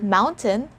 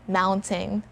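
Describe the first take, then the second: First: The final syllable is pronounced like 'tin'. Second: The final syllable is pronounced like 'tain'. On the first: The speaker calls it right. "So it's either mountain, mountain, tin, tin, and not tain" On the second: The speaker calls it wrong. "It's never mountain"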